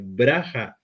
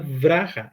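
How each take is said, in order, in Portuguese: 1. A palavra começa com som de b. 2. A palavra começa com som de v. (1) "é braha" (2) "Na verdade não é vraha"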